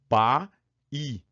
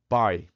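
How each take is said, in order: First: The vowels are split into two separate syllables. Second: It is one syllable with a weak final i. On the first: The speaker calls it wrong. "A gente vai ter duas sílabas" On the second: The speaker calls it right. "esse I é um fracote"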